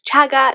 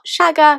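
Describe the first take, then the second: First: The name begins with a ch sound. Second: The name begins with a sh sound. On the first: The speaker calls it right. "it's Chagger" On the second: The speaker calls it wrong. "not Shagger, because she always mispronounced it"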